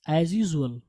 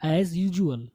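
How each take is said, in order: First: "usual" with a z, "yoo-zu-al"; mispronounced usual. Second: "usual" with a j, "yoo-ju-al"; corrected usual. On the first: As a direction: say "usual" with a plain z sound. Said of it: "जा की आवाज़ नहीं लाएगी". ("usual" میں "ز" کی آواز، "یوزول") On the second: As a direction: model "usual" with a j, not z. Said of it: "इसको हम पढ़ेंगे यूजुअल". ("usual" میں "ج" کی آواز، "یوجول") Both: Shown as a demonstration.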